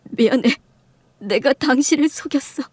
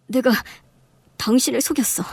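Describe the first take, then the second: First: Acted, lightly sobbing apology; tearful confession. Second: Said in the usual way. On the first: Husband confessing to his wife, mildly tearful. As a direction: confess through mild tears. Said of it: "남편이 목을 놓아 우는".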